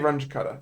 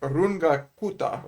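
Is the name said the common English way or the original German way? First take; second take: common English; original German. First: The name is said the common English way. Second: The name is said the original German way. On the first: This is how most people say the name. "People say Runge-Kutta" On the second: This is how the name is properly said. "if I pronounced it properly, it's probably like Runga Kuta"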